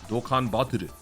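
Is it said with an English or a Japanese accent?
Japanese. It is said with a Japanese accent, L like R. "That's why it always sounds like an R"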